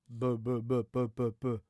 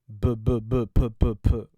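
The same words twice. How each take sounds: First: The b and p sounds are clean without pops. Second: The b and p sounds make loud popping bursts. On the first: The speaker calls it right. "si je mets cet anti-pop devant" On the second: The speaker calls it wrong. "Le son n'est vraiment pas agréable"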